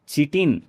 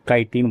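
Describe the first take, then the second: First: The word begins with a ch sound. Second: The word begins with a k sound. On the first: It is said as a joke. The speaker calls it wrong. "मजाक करने के लिए मैं चिटिन बोलता हूँ इसको।" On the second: It is the proper pronunciation. The speaker calls it right. "Proper जो pronunciation है"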